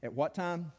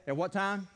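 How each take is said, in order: First: Said in the usual way. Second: Higher-pitched prompt to a congregation; calling for response. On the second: Real, not acted. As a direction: throw the question out for all to answer.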